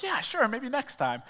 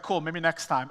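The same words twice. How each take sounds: First: Higher, slower, forced politeness; drawn-out fake agreement; stalling politely to dodge the invite; awkward polite agreement. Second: Easy, offhand friend; friend's breezy reply; casual brush-off. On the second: Retold or imitated. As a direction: toss it off lightly. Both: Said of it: "we're being polite".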